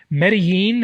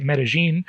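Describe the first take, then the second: First: Medellin said with a y sound for the double l; speaker's own pronunciation. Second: Medellin said with a zh sound for the double l; local pronunciation. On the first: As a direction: say "Medellin" as meh-deh-YEEN. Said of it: "as I say it". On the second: Host showing how locals say it, Medellin with zh. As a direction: say "Medellin" as meh-deh-ZHEEN. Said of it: "or as they say it". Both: Shown as a demonstration.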